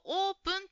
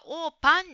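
First: The second vowel sounds like 'u'. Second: The second vowel sounds like 'a'. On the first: The speaker calls it right. "オープンという言葉が" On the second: The speaker calls it wrong. "オーパンに聞こえました。これはシンプルな言い間違いですね。"

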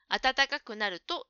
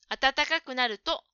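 Both takes have the same delivery.

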